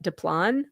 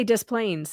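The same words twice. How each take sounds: First: "Des Plaines" as duh-plahn, no s sounds; French Des Plaines. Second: "Des Plaines" anglicized, with the s sounded; Illinois Des Plaines. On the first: Guessing at the French way for a friend, "Des Plaines" as duh-plahn. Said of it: "the French way would be like". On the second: Telling Becky how Illinois says it, "Des Plaines" as dess-plainz. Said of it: "that's how we say it". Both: Shown as a demonstration.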